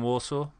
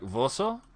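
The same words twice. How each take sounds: First: The word begins with a W sound. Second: The word begins with a V sound. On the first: "rather than Warsaw" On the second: "W sounds like a V. So you say like Warsaw"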